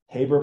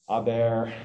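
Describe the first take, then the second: First: The name is said with English pronunciation. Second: The name is said with German pronunciation.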